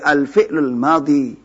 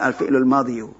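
First: The last word ends in a plain long 'ee'. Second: The last word ends in 'ee-yoo' with a final u. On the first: The speaker calls it right. "Jadi al-fi'lul madhi" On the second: The speaker calls it wrong. "bukan al-fi'lul madhiyu"

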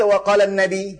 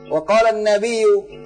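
First: The last word ends with a short 'i'. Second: The last word ends with a doubled 'iyyu'. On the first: The speaker calls it wrong. "Enggak dibaca wa qalan Nabi" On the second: The speaker calls it right. "Kan dia harakatkan ini"

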